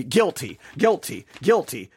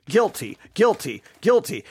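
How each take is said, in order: The two takes are said the same way.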